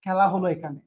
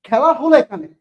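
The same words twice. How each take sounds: First: Quiet teaser. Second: Said in the usual way. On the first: Shown as a demonstration.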